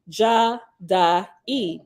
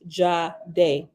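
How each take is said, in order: First: The name is said with three separate syllables. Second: The name is said as a single syllable. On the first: This is the later biblical Hebrew version. "In later biblical Hebrew, a version of this name was pronounced" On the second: This is the pronunciation the group uses. "in Nazarene ancient vibration, which is the pronunciation we use, it is pronounced"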